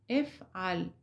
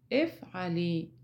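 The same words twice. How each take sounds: First: افعل said as efal, no final vowel; masculine command form. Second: افعلی said as efali, with a long final i; feminine command form. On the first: Teacher tells a boy to do it, saying افعل plainly as efal. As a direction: end افعل short on the consonant, efal. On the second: Teacher tells a girl to do it, adding the final i in افعلی. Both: Shown as a demonstration.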